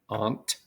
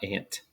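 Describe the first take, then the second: First: It does not sound like the word ant. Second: It sounds like the word ant. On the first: This is the pronunciation to use for the exercise. The speaker calls it right. "pronounce this one as aunt" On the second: This is the pronunciation not to use for the exercise. The speaker calls it wrong. "not ant"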